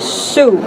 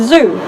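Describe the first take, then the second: First: The word begins with an S sound. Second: The word begins with a Z sound. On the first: "they will devoice it into S consonants" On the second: "instead of saying"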